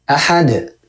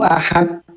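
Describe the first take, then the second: First: The final d ends with a bouncing echo. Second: The final d stops flat without an echo. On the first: The speaker calls it right. "padahal harusnya qalqalah" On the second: The speaker calls it wrong. "Kalau orang banyak baca Qul huwallahu ahad"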